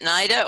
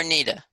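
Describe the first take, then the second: First: "Nida" with a long eye vowel, NY-da. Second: "Nida" with a long ee, NEE-da. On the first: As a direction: say "Nida" to rhyme with Ida. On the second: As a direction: say "Nida" with first syllable like knee. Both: Shown as a demonstration. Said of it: "is it Nida or Nida?".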